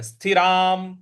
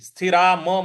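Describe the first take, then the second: First: The word ends in a bare 'm' without vowel. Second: The word ends with a separate full 'ma' syllable. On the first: The speaker calls it right. "यहां पे हलंत लगा हुआ है" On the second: The speaker calls it wrong. "मत बोलिएगा"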